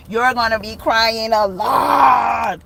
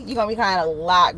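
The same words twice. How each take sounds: First: "lot" stretched out long and loud; stress on lot. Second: Said in the usual way. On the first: Real, not acted. Reader warning girl of happy tears, "lot" hugely stretched. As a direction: draw "lot" way out, swelling louder. Emphatic repeat of her warning.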